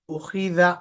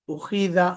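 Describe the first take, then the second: No difference in how they are said.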